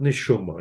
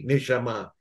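First: It is said with a Yiddish-style pronunciation. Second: It is said with a modern Hebrew pronunciation. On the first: "but neshuma" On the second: "in a modern Hebrew way"

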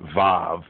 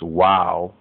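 First: The word begins with a V sound. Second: The word begins with a W sound. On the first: This is how others commonly pronounce it. The speaker calls it wrong. "They say ve, vav" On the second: This is the original pronunciation. The speaker calls it right. "but really it's wow"

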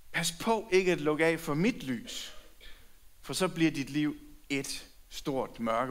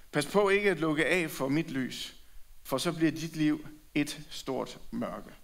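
The two takes are said the same way.

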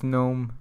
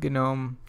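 First: The initial G is silent, starting with N. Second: The initial G is pronounced before the N. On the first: It is the ordinary everyday word. "I know that it's GNOME, you know, in regular speech" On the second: It points back to the GNU project. "the reason why I pronounce it GNOME"

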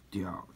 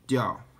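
First: The pitch dips low, then rises. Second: The pitch falls sharply from high.

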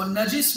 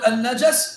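First: The j is followed by an i vowel. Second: The j is followed by an a vowel. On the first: "une kasra" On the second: "On peut mettre une fatha sur le Jim"

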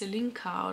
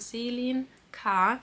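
First: The name is run together as one word. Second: The name is split into two separate parts. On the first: The speaker calls it wrong. "nicht, dass ich das jetzt als Selinka oder so ausgesprochen habe" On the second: The speaker calls it right. "Selin Vorname, K. Nachname natürlich"

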